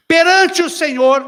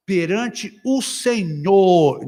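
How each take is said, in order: First: Higher, louder and slow; emphatic quote. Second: Said in the usual way. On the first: Shown as a demonstration. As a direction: proclaim it slowly. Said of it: "assunto dois". ("Perante" bem enfatizado) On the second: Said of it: "Ninguém tá falando de Senhor".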